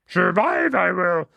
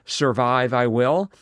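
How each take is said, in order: First: It is spoken in a put-on creature voice. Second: It is read in the speaker's ordinary voice. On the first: "Perhaps I should be saying it in the Yoda voice" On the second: "I'll just read it"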